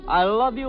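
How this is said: It is said with loud, forceful passion.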